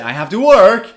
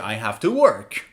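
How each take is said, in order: First: The voice does not go down at the end. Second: The voice goes down at the end. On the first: The speaker calls it wrong. "I don't say" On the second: The speaker calls it right. "I say I have to work. I go down"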